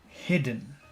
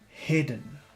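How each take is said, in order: The two takes are said the same way.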